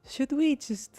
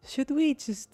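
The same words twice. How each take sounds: First: It is said in a put-on Russian accent. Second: The same.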